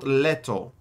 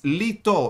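First: The first vowel sounds like 'eh'. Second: The first vowel sounds like 'ee'. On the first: The speaker calls it wrong. "it's not Leto" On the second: The speaker calls it right. "It's Lito, in Greek"

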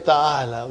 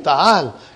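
First: The word ends with a short final vowel. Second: The word ends on a consonant without vowel. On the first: The speaker calls it wrong. "But you will never say ta'ala" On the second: The speaker calls it right. "you will give a sukun"

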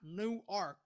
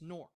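First: The name is pronounced the non-local way. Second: The name is pronounced the local way. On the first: The speaker calls it wrong. "not Newark" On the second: The speaker calls it right. "it's Newark"

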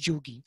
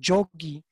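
First: It begins with a j sound and u. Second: It begins with a j sound and o. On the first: This is the local Bengali form. "but in Bengal, in Eastern India, it's Jugi" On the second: This is the form used elsewhere in North India. "In other parts of North India, it's pronounced Jogi"

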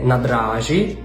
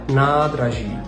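First: The stress falls on a later syllable. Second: The stress falls on the first syllable. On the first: The speaker calls it wrong. "ставити наголос у словах не на перший склад" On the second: The speaker calls it right. "більшість слів мають наголос на першому складі"

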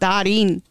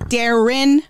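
First: The name is said with a Spanish-style pronunciation. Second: The name is said the plain English way. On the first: This is how the family says the name. The speaker calls it wrong. "not Darin" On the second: This is how the name is meant to be said. The speaker calls it right. "Like it's Darren"

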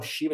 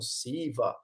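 First: The name begins with an 'sh' sound. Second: The name begins with a plain 's' sound. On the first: "Eles não falam Shiva" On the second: "eles falam Siva"

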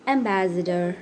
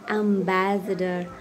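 First: American accent, first syllable sounds like letter M. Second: British accent, first syllable sounds like 'am'. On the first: "But in American English, they say M" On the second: "So when it is in British, they say AM"

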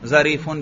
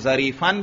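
First: The word ends with the sound 'un'. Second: The word ends with the sound 'an'. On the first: The adjective follows the noun's underlying nominative position. "और जरीफुन क्यों पढ़ेंगे? इस गुलाम रजुलिन के महल पर हमल करते हुए" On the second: The adjective follows the noun's accusative form. "जरीफन क्यों पढ़ेंगे? क्योंकि इसका मौसूफ लफ्जन मंसूब है"

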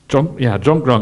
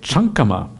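First: It is pronounced the Thai way. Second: It is pronounced the Pali way. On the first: "that's the Thai pronunciation" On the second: "The word for meditation in Pali is chankama"

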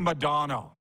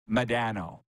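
First: The name is said the American way. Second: The name is said the Canadian way. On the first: The speaker calls it right. "Americans say Modano" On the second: The speaker calls it wrong. "Canadians say Modano"

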